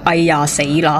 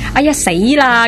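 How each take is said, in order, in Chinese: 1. 这是以平淡、没有感情的语气说的。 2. 这是以害怕、惊慌的语气说的。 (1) "突然间佢讲到好平淡咁样" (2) "本来应该好惊吓嘅"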